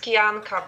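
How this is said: The name is pronounced with Polish sounds. "in Polish it's Kijanka"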